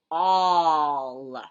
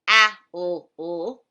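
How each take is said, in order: First: The vowel sounds like the word all. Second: The vowel sounds like the word owl. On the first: The speaker calls it right. "We pronounce it all" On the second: The speaker calls it wrong. "we don't pronounce it owl"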